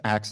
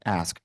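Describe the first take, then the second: First: "ask" said as "axe", k and s swapped; Southern slip. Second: Said in the usual way. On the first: Real, not acted. Presenter slipping on a loan rule, "ask" coming out as "axe". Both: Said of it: "did you guys hear me say axe".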